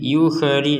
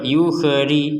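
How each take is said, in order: Both takes have the same delivery.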